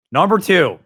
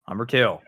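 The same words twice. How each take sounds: First: Announcer call. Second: Said in the usual way. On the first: Shown as a demonstration.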